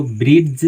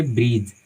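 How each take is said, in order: First: ब्रिज said as "brid-j", with the d sounded; ब्रिज pronounced with an audible d, as a mistake; wrong pronunciation. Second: ब्रिज said as "brij", the d silent; ब्रिज with the d left silent; correct pronunciation. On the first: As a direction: sound the d in ब्रिज clearly before the j. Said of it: "नहीं पढ़ेंगे". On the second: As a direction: say ब्रिज with no d, straight into the j. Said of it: "हम इसको पढ़ेंगे ब्रिज". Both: Shown as a demonstration.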